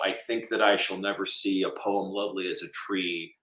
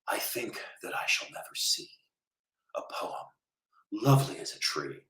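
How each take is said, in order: First: It is read plainly in his own voice. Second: It is read in a dramatic actor's voice.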